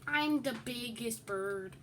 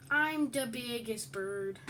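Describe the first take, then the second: First: Said in the usual way. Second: Drawn out a touch slower, teasing; slow sing-song taunt. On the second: Pretend. Gloating at the other player, slowly drawn out.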